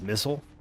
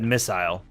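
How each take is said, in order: First: The second syllable has a reduced, weak vowel. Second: The second syllable has a full 'eye' vowel. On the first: "They don't pronounce the I" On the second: "I guess that's the British way of saying it"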